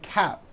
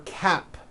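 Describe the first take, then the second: First: The final P sound is dropped or unheard. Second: The final P sound is clearly released. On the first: The speaker calls it wrong. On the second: The speaker calls it right.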